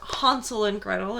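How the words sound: It is said in a foreign accent.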